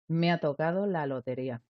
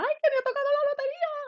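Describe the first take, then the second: First: It is said flatly in a low, calm tone. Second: It is shouted excitedly in a high tone.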